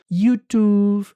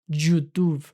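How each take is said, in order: First: It starts with a soft 'ee'-like glide. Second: It starts with a Spanish-style Y consonant. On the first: The speaker calls it right. "La Y es una I y la voy a pronunciar tal cual" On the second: The speaker calls it wrong. "La Y en inglés no se pronuncia como nuestra Y"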